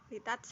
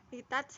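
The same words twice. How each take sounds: No difference in how they are said.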